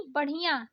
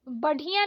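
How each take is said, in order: First: बढ़िया with aspirated flap ढ़; correct flapped ढ़. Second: बढ़िया with stopped ढ; wrong hard ढ. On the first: Teacher correcting learners, flapped बढ़िया. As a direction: flick the ढ़ in बढ़िया. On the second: Teacher showing learners the mistake, hard बढ़िया. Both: Shown as a demonstration. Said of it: "नहीं".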